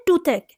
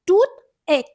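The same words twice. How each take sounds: First: Said in the usual way. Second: "टूथ एक" split in two, each word given its own stress; separated, equally strong "टूथ एक"; both syllables stressed. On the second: Shown as a demonstration. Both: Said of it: "दोनों ही stressed है".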